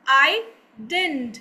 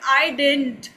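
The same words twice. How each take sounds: First: It is contracted and the middle d drops out. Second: It is contracted to one quicker word. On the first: "उससे भी ज्यादा fast English में ... जो बीच वाला डी है उसको हटा देंगे" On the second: "fast English में बोलते हैं"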